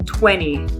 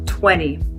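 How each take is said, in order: First: It is said in the relaxed American spoken form. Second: It is said in the relaxed American spoken form.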